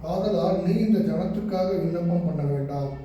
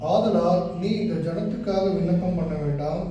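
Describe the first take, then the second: No difference in how they are said.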